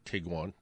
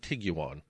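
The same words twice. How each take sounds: First: The name follows its official pronunciation. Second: The name is pronounced as it is spelled. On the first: "It's actually Tiguan" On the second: "I like to say Tiguan because that's what it looks like"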